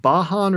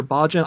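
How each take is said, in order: First: "Bajan" said as BAH-hahn; "Bajan" pronounced Spanish-style, J as H; Bajan with H sound. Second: "Bajan" said as BAH-jun; "Bajan" pronounced with J as in jam; Bajan with J sound. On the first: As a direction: say "Bajan" with a breathed H for the J. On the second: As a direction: say "Bajan" with a hard English J. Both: Shown as a demonstration. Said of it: "is it pronounced Bajan or Bajan".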